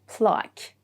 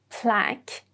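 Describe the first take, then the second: First: It is said in a British accent. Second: It is said in an American accent. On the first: "the British pronunciation" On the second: "the American pronunciation"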